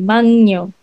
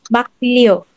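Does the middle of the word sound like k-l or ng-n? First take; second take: ng-n; k-l. First: The middle is said with ng then n. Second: The middle is said with k then l.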